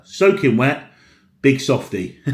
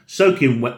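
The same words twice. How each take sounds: First: Teasing laugh. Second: Said in the usual way. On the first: Real, not acted. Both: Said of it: "oh no".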